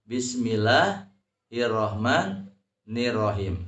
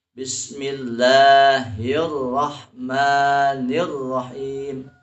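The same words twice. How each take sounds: First: Bismillahirrahmanirrahim with doubled consonants left light; Bismillahirrahmanirrahim without syiddah. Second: Slow, louder Bismillahirrahmanirrahim, doubled consonants held; Bismillahirrahmanirrahim with syiddah held. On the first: Teacher showing how not to read it, Bismillahirrahmanirrahim with syiddah dropped. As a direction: speak Bismillahirrahmanirrahim unstressed, no held consonants. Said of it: "Jadi membacanya jangan".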